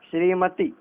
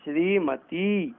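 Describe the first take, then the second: First: श्रीमती with a short final "ti"; wrong short ending. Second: श्रीमती slowly, with long "shree" and "tee"; correct long vowels. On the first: Teacher showing the error, श्रीमती with short final i. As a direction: cut the last vowel of श्रीमती short. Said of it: "नहीं, श्रीमती". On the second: Teacher correcting it, श्रीमती slow with long vowels. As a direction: draw out the final "ee" of श्रीमती. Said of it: "नहीं". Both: Shown as a demonstration.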